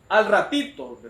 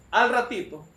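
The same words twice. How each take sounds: The two takes are said the same way.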